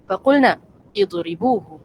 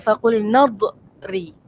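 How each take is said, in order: First: The 'i' vowel is pronounced between the words. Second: The words run together without the 'i' vowel. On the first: Each word is read separately. "kalau kita baca satu-satu kita sebut faqulna idribuhu" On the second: The words are read joined together. "Kalau kita sambung kita kata faqulna dhri"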